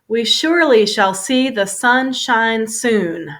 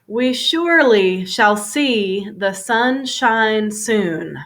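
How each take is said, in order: First: The sentence is said at a fast pace. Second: The sentence is said at a moderate pace.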